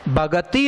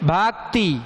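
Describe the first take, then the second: First: The middle consonant is a full 'ga' syllable. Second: The middle consonant is a half 'k' sound. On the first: The speaker calls it wrong. "भगति नहीं, इसमें ग पूरा हो रहा है" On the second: The speaker calls it right. "इसमें क आधा है"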